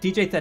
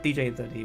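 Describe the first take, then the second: First: The ending is one syllable, 'Thed'. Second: The ending is two words, 'the D'. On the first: This is the current pronunciation. "is what I say now" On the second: This was the original pronunciation. "was the original pronunciation"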